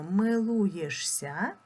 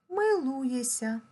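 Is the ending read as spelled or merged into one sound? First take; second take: as spelled; merged. First: The ending is read letter by letter as -шся. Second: The ending merges into a long s sound. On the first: This is how the word is written. "Пишемо" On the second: This is how the word is spoken. "а вимовляємо"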